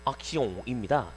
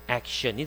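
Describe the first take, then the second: First: The word has a French pronunciation. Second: The word has an English pronunciation. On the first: "프랑스어로 액션입니다" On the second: "영어로 액션이 되는 거죠"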